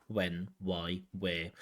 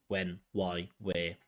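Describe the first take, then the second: The two takes are said the same way.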